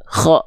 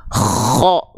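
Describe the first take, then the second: First: "Kho" with a short, relaxed rasp on the kh; ordinary light kh. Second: "Kho" with a long, overdone snore-like rasp on the kh; exaggerated snoring kh. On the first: Teacher showing the correct way, short unforced kh. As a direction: keep the scrape in "Kho" brief and easy. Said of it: "biasa aja". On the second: Teacher showing what not to do, exaggerated snoring kh. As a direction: overdo the rattle before the vowel of "Kho". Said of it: "nggak gitu juga". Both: Shown as a demonstration.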